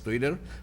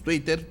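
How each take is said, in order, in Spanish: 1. Twitter se pronuncia con sonidos ingleses. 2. Twitter se pronuncia con sonidos españoles. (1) "hay quien lo hace al estilo inglés, del inglés" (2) "otros ya decimos"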